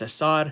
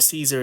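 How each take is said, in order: First: The name does not sound like the salad name. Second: The name sounds like the salad name Caesar. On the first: The speaker calls it right. "It's Cesar" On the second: The speaker calls it wrong. "it isn't Caesar"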